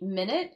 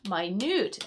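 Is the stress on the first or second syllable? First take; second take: first; second. First: The stress is on the first syllable. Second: The stress is on the second syllable. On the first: A period of time. "Minute as in a period of time" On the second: Extremely small. "we can also read this word as minute"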